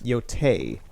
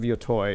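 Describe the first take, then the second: First: The last syllable sounds like 'tay'. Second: The last syllable sounds like 'toy'. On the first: "Tay. Tay" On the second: "that is how a Midwesterner, as I am, would pronounce Ghost of Yotoi. Is Ghost of Yotoi like a toy"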